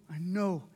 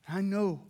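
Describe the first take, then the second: No difference in how they are said.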